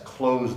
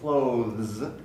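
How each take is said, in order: First: It sounds like close, with no TH. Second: A TH sound is pronounced before the end. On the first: "in my dialect, close has exactly the same pronunciation as close the door" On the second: "some people very carefully might say"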